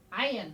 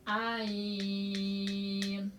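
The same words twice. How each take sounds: First: Said in the usual way. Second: "Ain" held very long on one level note; six-beat elongation. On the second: Shown as a demonstration. Teacher demonstrating six harkat to students, "Ain" sustained. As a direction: stretch "Ain" steadily, closing only at the end. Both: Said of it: "harus dibaca enam harkat".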